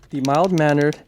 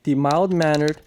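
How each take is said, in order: Both takes have the same delivery.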